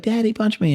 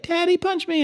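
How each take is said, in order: First: Put-on raised, whiny kid voice; a lighter high-pitched kid pleading; child's plea. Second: Put-on high, whiny little kid begging; high-pitched kid voice pleading with daddy; child's plea. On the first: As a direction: imitate the child asking again. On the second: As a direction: mimic a small child asking to be hit. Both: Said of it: "they'll be like".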